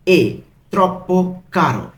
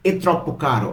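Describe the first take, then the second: First: "এ ... troppo ... caro" with pauses; one word at a time on "এ troppo caro"; broken into pieces. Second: Said in the usual way. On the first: Shown as a demonstration. Teacher translating too expensive for learners, word by word. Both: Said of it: "আমি কিন্তু ভেঙে ভেঙে বলছি".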